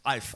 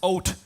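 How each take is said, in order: First: It is said in an East London accent. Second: It is said in an Irish accent. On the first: "if you're a geezer from the west, from the east end of London" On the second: "If you're from Ireland, it's Oat"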